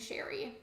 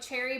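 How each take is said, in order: First: The name begins with an sh sound. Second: The name begins with a ch sound. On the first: "and then I changed it to saying Sherry" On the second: "I used to pronounce her name like Cherry"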